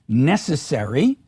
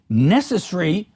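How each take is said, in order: First: Every syllable is pronounced with its full weight. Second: A syllable is reduced, making the word shorter. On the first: "rather than" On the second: "in British English you hear pronunciations such as"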